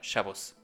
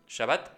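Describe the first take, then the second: First: It has a v sound and ends in s. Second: It has open a vowels and ends in t. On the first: This is the Eastern European Yiddish pronunciation. "pronunciación en yiddish europea del este" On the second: This is the modern Hebrew, Spanish-like pronunciation. "en hebreo moderno por su pronunciación española"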